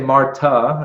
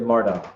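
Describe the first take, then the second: First: The name is said the Spanish way. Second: The name is said the American way. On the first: The speaker calls it wrong. "They wouldn't say Marta" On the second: The speaker calls it right. "They would say MARTA"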